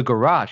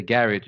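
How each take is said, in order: First: "garage" as guh-RAHZH, stressed on the second syllable; "garage" the everyday American way, guh-RAHZH; usual pronunciation. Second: "garage" as GARR-ij, stressed on the first syllable; "garage" the funny British-style way, GARR-ij; joking pronunciation. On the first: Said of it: "What the hell is that?". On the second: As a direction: say "garage" to rhyme with "carriage". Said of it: "I tell my wife that just to be funny". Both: Retold or imitated.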